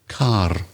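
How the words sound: The final R is clearly pronounced. "I put my tongue at the roof of my mouth and pronounce the R"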